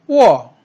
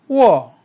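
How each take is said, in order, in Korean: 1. 음높이가 높은 데서 낮은 데로 급하게 떨어져요. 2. 음높이가 높은 데서 낮은 데로 급하게 떨어져요.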